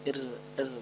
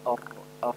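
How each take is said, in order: First: The r sound is thin and light. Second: The r sound is thick and heavy. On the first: "ra tipis" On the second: "ra tebal"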